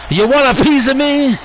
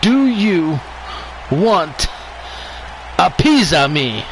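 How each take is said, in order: First: It is said at a normal, quicker pace. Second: It is said slowly and deliberately.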